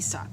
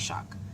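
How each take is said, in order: First: The name starts with a plain s sound. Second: The name starts with an sh sound.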